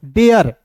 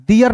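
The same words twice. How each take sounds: First: डेयर with an "e" sound after D; correct डेयर. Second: डियर with an "i" sound after D; mispronounced डियर. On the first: Teacher modelling for learners, डेयर said with "e". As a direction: say डेयर as "de-yar", falling at the end. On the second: Teacher showing learners the mistake, डियर said with "i". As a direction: say डियर as "di-yar". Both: Shown as a demonstration. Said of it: "डियर नहीं पढ़ेंगे".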